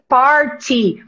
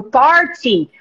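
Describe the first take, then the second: First: "party" said the American way, /porti/ with a flapped t; student shows teacher the American "party". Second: "party" in a British accent, open o and clear t. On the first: A student demonstrating "party" as Americans say it, /porti/. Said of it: "você fala assim". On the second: A student demonstrating "party" in a British accent. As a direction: say "party" like a Brit. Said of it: "Fala igual um britânico". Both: Shown as a demonstration.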